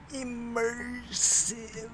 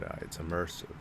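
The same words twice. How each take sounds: First: "Immersive" stretched very high and slow; exaggerated. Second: Said in the usual way. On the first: Shown as a demonstration. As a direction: sing out "Immersive" high and long. Repeats word, then exaggerates it.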